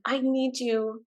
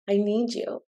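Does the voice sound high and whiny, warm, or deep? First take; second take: high whiny; warm. First: It is high and whiny, from the head. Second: It is warmer, resonating from the chest.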